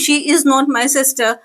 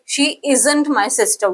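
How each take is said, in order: First: The words 'is not' are said in full. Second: The words 'is not' are contracted to 'isn't'. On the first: The speaker calls it wrong. "Instead of saying" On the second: The speaker calls it right. "आपकी जो fluency है वो वो fast होगी"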